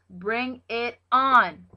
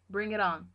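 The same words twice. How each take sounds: First: Slow, emphatic and louder challenge. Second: Said in the usual way. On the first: Real, not acted. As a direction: drag it out as a fired-up dare. Repeats the phrase louder.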